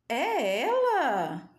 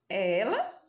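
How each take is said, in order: First: It is said with amazed surprise. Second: It is said as a question.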